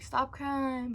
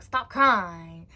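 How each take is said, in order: First: Higher-pitched imitation of a strict grandfather; strict papa. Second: Loud, firm command at normal pitch; strict papa. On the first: Papa telling crying child to stop, mildly strict. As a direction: lightly voice a scolding papa. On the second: Retold or imitated. Papa ordering crying child to stop, loudly strict. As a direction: imitate a strict grandfather giving an order. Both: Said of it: "but he, like, strict".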